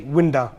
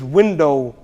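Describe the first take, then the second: First: "winda" with the final o flattened to a short uh; "winda" in a light Punjabi-English accent; Punjabi pronunciation. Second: Said in the usual way. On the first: Shown as a demonstration. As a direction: say "winda" the way Punjabi speakers say window. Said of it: "the word is window". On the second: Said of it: "the Punjabis will say winda".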